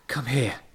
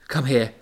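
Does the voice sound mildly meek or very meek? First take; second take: very meek; mildly meek. First: The voice sounds very meek and timid. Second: The voice sounds only slightly meek. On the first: The speaker calls it right. "in a meeker voice" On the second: The speaker calls it wrong. "I should probably do that again in a meeker voice"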